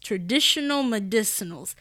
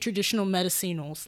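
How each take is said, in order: First: It is said slowly with every syllable clear. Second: It is said quickly with syllables run together. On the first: The speaker calls it right. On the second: The speaker calls it wrong.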